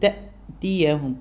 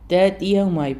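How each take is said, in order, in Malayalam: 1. വാക്കിന്റെ നടുവിൽ വ്യക്തമായ ഗ്ലോട്ടൽ കാച്ച് കേൾക്കാം. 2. കാച്ച് ഇല്ലാതെ വാക്ക് സുഗമമായി ഒഴുകുന്നു. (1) "ചൊട്ട് കൊടുക്കുന്ന രീതിയിൽ" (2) "ഹംസ കേൾക്കാത്ത രീതിയിലായിപ്പോൾ"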